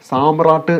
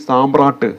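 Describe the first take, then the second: Both takes have the same delivery.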